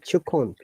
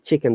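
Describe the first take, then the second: First: It is said with a Liverpool vowel. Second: It is said with a standard English vowel. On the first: "they say chukon" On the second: "they don't say chicken"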